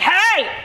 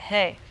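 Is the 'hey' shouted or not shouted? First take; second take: shouted; not shouted. First: The word is shouted aggressively. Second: The word is said without shouting.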